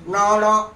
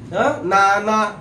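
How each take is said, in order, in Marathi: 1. न मूर्धन्य आहे, जीभ मागे वळते. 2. न दंत्य आहे, जीभ दातांना लागते. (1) "जीभ मुरडते असे टर्न होते" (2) "आपला अग्रभाग जो आहे तो पुढे दाताला लागतो"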